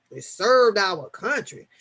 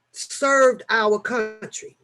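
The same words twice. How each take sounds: First: Said in the usual way. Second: Drawn-out slogan; slow slogan read. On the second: Retold or imitated. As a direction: spell out the slogan slowly. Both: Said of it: "their, um, slogan is".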